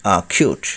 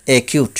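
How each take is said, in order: First: অ্যাকিউট said "a-khiut"; corrected pronunciation. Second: অ্যাকিউট said "e-kiut"; common mispronunciation. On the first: Teacher correcting learners, অ্যাকিউট as "a-khiut". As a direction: say অ্যাকিউট with "a" and aspirated "kh". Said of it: "সঠিক উচ্চারণ হবে". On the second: Teacher showing the common way, অ্যাকিউট as "e-kiut". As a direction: say অ্যাকিউট with "e" and plain k. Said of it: "আমরা বলে থাকি". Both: Shown as a demonstration.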